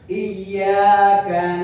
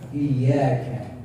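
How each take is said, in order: First: The k is released without a breathy puff. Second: The k is released with a breathy puff. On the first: The speaker calls it wrong. "betul, tidak salah" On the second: The speaker calls it right. "yang indah adalah ka"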